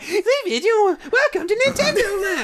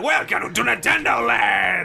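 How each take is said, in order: First: It is said in a Peach voice. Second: It is said in a Wario voice.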